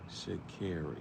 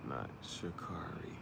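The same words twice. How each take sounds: First: Sha'Carri as shuh-KAIR-ee, soft; quietly saying Sha'Carri with care; right way. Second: Sha'Carri whispered with car, shuh-KAR-ee; whispered wrong way. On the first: Imitating the runner's video, Sha'Carri with care. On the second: Imitating the runner's video, whispered wrong Sha'Carri. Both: Retold or imitated. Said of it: "that's what she just".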